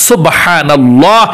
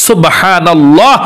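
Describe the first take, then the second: Both takes have the same delivery.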